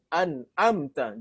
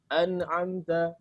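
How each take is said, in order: First: The middle consonant is a plain glottal stop. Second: The middle consonant falls between glottal and pharyngeal. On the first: "Kalau dibaca hamzah seperti ini" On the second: "Ini keliru dan memposisikan seperti ini"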